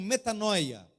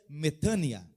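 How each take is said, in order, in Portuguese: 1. A vogal do meio é dita como 'oy'. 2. A vogal do meio é dita como 'ee'. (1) "popularmente conhecida no Brasil como metanoia" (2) "a pronúncia iotacista seria metânia"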